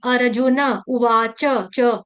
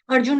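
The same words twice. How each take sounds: First: "अर्जुन उवाच च" slowly, with a full na and cha; full final vowels. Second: "अर्जुन" ending on n, no final vowel; clipped final न. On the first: Teacher correcting students, slow "अर्जुन" with full na. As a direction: draw it out as ar-ju-na u-vaa-cha, cha. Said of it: "अर्जुन का न पूरा". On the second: Teacher showing the mistake, "अर्जुन" cut short at n. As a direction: drop the last a of "अर्जुन", ar-jun. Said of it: "अर्जुन नहीं". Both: Shown as a demonstration.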